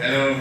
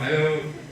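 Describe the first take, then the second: First: It is said in an angry tone. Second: It is said in a happy tone.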